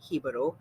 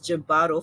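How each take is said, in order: First: The word begins with an H sound. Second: The word begins with a J sound. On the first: The speaker calls it right. "the correct pronunciation of it, which is Hibaro" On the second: The speaker calls it wrong. "mispronouncing it as Jibbaro"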